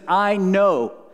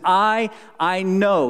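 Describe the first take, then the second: First: No special stress falls on I. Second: The word I is stressed.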